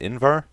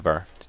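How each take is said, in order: First: It is said with an N before the V. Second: It is said with no N before the V. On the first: The speaker calls it right. "There's an N in there" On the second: The speaker calls it wrong. "I always call it Ivar"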